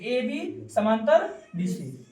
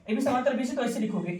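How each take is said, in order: First: AB समांतर BC spelled out slowly, word by word; slow dictation. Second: Said in the usual way. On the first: Shown as a demonstration. Teacher slowly dictating AB समांतर BC to the class. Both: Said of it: "अगर हम बोलते हैं AB समांतर BC लिखो".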